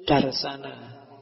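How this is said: The word ends in an 'a' vowel sound. "dalam bahasa India itu darsana"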